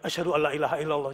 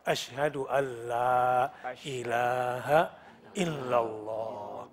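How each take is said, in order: First: The vowel after the double l is cut short. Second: The vowel after the double l lasts two beats. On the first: The speaker calls it wrong. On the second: The speaker calls it right. "minimal dua. Dua ketukan, dua harokat"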